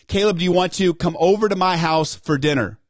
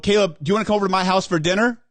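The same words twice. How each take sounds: First: The voice falls at the end of the question. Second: The voice rises at the end of the question. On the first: The speaker sounds confident and inviting. The speaker calls it right. "you want to be inviting and you want to be confident with it" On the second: The speaker sounds desperate or begging. The speaker calls it wrong. "See how I, I upended at the back end?"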